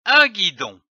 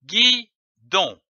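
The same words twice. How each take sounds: First: Said in the usual way. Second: "guidon" split as gui, pause, don; syllable by syllable. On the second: Shown as a demonstration. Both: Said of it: "L'association de ces syllabes donne".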